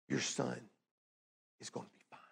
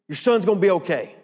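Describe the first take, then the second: First: It sounds warm and compassionate. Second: It sounds impatient and dismissive.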